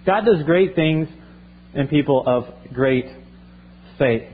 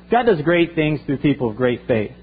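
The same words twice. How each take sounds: First: "God does great things in people of great faith" spelled out slowly, with pauses before "people" and "faith"; slow dictation pace. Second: Said in the usual way. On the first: Shown as a demonstration. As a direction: let them write it down word by word. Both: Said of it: "just write this".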